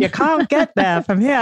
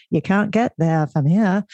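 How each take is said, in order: First: Hammed-up Boston accent, higher, no r in there and here. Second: Put-on a light Boston accent, dropped r in there and here. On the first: Host redoing the skit line for her guest: a playful broad Boston accent. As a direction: redo the Saturday Night Live line as a broad, higher-pitched Boston accent. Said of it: "we gotta work on your Boston accent". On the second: Host quoting the Saturday Night Live skit: a mild Boston accent. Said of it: "we're going to a Boston accent".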